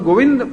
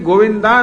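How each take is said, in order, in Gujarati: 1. શબ્દ સાદા 'દ' અવાજથી અંત પામે છે. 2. શબ્દ લાંબા 'આ' સ્વરથી અંત પામે છે. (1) "ગોવિંદ પણ નહીં" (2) "ગોવિંદા ના કેવું હોય"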